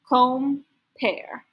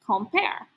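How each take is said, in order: First: The word is split into two separate parts. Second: The word is said smoothly as one whole. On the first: "read it in two parts" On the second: "and then together as a real word"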